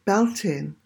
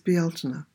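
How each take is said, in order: First: It is read the English way, as spelled. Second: It is said the native Irish way. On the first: The speaker calls it wrong. "those who don't know how to spell it or pronounce it will call it Beltane, which it is not" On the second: The speaker calls it right. "It is Beltane"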